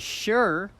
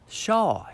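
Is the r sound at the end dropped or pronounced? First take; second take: pronounced; dropped. First: The word ends with a strong r sound. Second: The word ends without an r sound. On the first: "they don't say sure, er, er" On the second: "in the South they say shaw"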